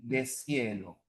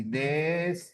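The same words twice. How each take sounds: First: Deshielo lower and softer as de-SIE-lo; syllable split demo. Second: Deshielo drawn out as des-YE-lo; syllable by syllable. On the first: Teacher showing Cepre's split, S joined to the next syllable. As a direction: run the S into IE in deshielo. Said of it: "En Cepre sería así". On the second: Teacher showing the RAE split, stretched syllables. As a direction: break deshielo after S, then a long Y-like ye. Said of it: "la rae sería así". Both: Shown as a demonstration.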